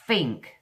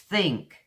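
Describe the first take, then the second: First: It begins with an f sound. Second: It begins with a th sound. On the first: "the way the Cockneys say it is think. They put their teeth on here" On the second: "You put your tongue between your teeth. Th, th. It's think"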